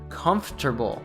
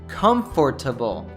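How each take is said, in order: First: The word is said with three syllables. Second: The word is said with four syllables. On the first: "a native would probably reduce this to comfortable, again removing one of the syllables" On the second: "You probably said comfortable"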